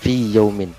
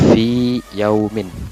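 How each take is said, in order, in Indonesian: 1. Vokal fi pendek dan menyatu. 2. Vokal fi panjang dan jelas. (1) "Jangan fi yaumin, nanti madnya itu hilang" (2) "di sini fi-nya itu panjang, maka harus diidharkan"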